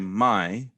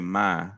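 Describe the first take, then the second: First: The vowel is a full gliding diphthong. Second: The vowel is a flat single 'ah' sound. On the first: The speaker is not from the South. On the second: The speaker is from the South.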